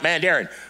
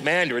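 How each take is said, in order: First: It is said in a Kentucky accent. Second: It is said in a Californian accent. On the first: This is how the other person said it. The speaker calls it wrong. "she had a natural accent" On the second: This is the local way of saying it. The speaker calls it right. "here in California, we call that mandarin"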